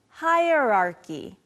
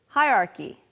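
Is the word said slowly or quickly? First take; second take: slowly; quickly. First: It is said slowly and carefully. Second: It is said quickly, the R fading.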